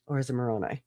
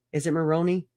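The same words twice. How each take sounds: First: Moroni ending in eye; Moroni said mə-RO-nye. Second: Moroni ending in ee; Moroni said mə-RO-nee. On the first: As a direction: say Moroni with final rhyme of eye. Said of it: "it's Moroni". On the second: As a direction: say Moroni with final ee. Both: Shown as a demonstration.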